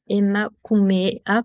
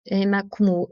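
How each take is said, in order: First: Emakumea said slowly with every syllable clear, e-ma-ku-me-a; slow, careful correction: emakumea; corrected word. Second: Emakumu- broken off mid-word on the final u; slip of the tongue. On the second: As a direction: start saying emakumu- and cut it off. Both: Shown as a demonstration.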